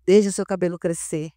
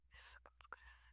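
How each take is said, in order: First: Said in the usual way. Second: Breathy hushed "Deixa o seu cabelo crescer", no voice at all; whisper. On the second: Retold or imitated. Echoing the Lord's words to herself in a whisper. Repeats God's words softly.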